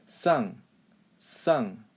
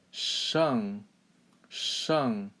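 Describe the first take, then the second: First: "Sang" with a plain s, no curl; wrong-way demo "Sang", hissed s for sh; uncurled tongue. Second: "shang" with a hushed retroflex sh; careful falling "shang", thick sh; curled-tongue shang. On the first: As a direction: say "Sang" with tongue flat, falling tone. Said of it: "do one without curling my tongue". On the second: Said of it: "curl your tongue a little bit". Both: Shown as a demonstration.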